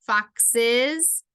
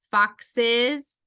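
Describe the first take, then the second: No difference in how they are said.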